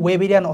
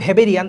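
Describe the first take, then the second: First: The word begins with a W sound. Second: The word begins with a V sound. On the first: The speaker calls it right. "এটা আসলে ইংলিশে কিন্তু ওয়েবেরিয়ান অসিকল" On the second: The speaker calls it wrong. "এটা উচ্চারণ লিখছে ভেবেরিয়ান, আসলে ভেবেরিয়ান না"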